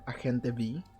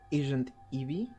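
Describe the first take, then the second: First: The name is said with Spanish pronunciation. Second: The name is said with English pronunciation. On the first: "or Spanish" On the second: "whether it's English"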